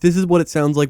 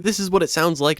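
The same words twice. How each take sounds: First: The voice has EQ only, with stronger bass. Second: The voice has compression only, little audible change. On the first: "with only Track E Q" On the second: "with Track Compressor"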